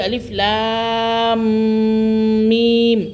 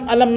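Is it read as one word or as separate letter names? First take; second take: separate letters; one word. First: Each letter is said separately by its name. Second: The letters are joined into one short word. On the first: The speaker calls it right. "बल्कि अलिफ लाम मीम" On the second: The speaker calls it wrong. "इनको अलम अलम ना करना"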